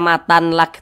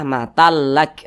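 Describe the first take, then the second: First: The n sound is kept before the l. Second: The n merges into the l, without nasal hum. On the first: The speaker calls it wrong. "Jangan dibaca matan lak" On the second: The speaker calls it right. "tapi dibaca matal lak"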